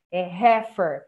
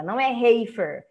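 First: "heifer" said as HEF-er; right heifer. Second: "heifer" said wrongly as HAY-fer. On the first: Teacher corrects to proper "heifer". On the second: Teacher shows students' wrong "heifer". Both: Shown as a demonstration.

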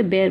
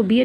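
First: बेयर said with an open e, like bair; the right way, बेयर rhyming with care; correct pronunciation. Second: बियर said like the drink, with a long ee; the wrong way, बियर rhyming with beer; wrong pronunciation. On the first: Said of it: "बेयर बोलते हैं". (सही उच्चारण: बेयर, खुले ए के साथ) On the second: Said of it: "इसको बियर नहीं बोलते". (गलत उच्चारण: बियर, जैसे पीने वाली बियर) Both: Shown as a demonstration.

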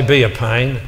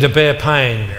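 First: "be a pain" as in being annoying; wrong reading. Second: "bear pain" slow, with "bear" stressed as in endure. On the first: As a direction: say "be a pain", a nuisance. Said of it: "I said to bear pain". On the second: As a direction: lean slowly on "bear pain". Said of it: "I didn't say be a pain". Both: Shown as a demonstration.

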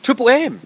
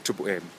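First: Sudden much higher, louder Triple M?, rising in disbelief; surprised question. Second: Triple M. dropped much lower and softer, muttered to himself; quiet aside. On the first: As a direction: catch himself, startled by Triple M?. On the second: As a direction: let Triple M. fall away low and quiet. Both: Real, not acted. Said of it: "No, that's a radio station".

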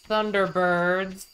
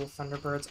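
First: Loud, slow THUNDERBIRDS; loud exclamation. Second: Said in the usual way. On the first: Real, not acted. Player recalls dad's old school show, loud exclamation. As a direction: belt out the title, drawing it out.

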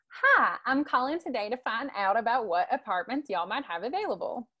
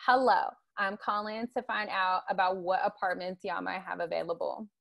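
First: Friendly Southern accent, y'all and all. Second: A light African American English accent, with y'all. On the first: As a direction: call about an apartment in a light Southern accent. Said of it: "the Southern voice is something like". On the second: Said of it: "the Black voice is like". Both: Shown as a demonstration.

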